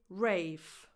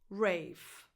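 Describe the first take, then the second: The two takes are said the same way.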